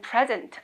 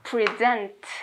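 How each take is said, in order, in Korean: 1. 강세는 첫 번째 음절에 있어요. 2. 강세는 두 번째 음절에 있어요. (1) "명사거나 현재의 참석하는 이때는 present 앞에 강세하시면 되고" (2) "동사니까 뒤에 강세에서 present 이렇게 읽으시면 되는 거예요"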